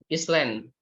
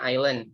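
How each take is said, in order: First: "Island" said as spelled, with the s sounded; mispronounced island. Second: "island" said with a silent s; correct pronunciation. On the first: Teacher showing students a common misreading, mispronounced "Island" with a sounded s. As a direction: say "Island" wrongly as "IS-land", pronouncing the s. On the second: Teacher correcting a common misreading for students, "island" pronounced with silent s. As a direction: say "island" as "EYE-land", no s sound. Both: Shown as a demonstration. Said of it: "Harusnya kan bacanya island".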